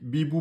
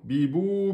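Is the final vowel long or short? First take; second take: short; long. First: The final vowel is short and clipped. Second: The final vowel is held long, two beats. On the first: The speaker calls it wrong. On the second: The speaker calls it right.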